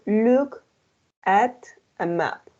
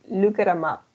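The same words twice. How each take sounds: First: The phrase is spoken slowly and carefully. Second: The phrase is spoken quickly with linked words. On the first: "That's a slow when you speak slow" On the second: "if you want to speak faster"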